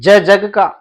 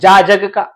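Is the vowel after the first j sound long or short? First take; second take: short; long. First: The letter is said with a short a vowel. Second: The letter is said with a long aa vowel. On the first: The speaker calls it right. "और मैं बोल रहा हूं ज जग का, ऐसे बोलना चाहिए" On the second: The speaker calls it wrong. "तो आप जा जग का जरूर कहते होंगे"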